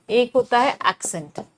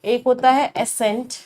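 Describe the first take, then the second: First: एक्सेंट said "aksent" with a clear k before the s; teacher contrasting एक्सेंट with एसेंट, stressing the k in एक्सेंट; accent with a k. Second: एसेंट said as plain "esent" with no k sound; teacher contrasting एसेंट with एक्सेंट, saying एसेंट without a k; ascent, not accent. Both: Shown as a demonstration. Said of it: "देखो, दो words होते हैं".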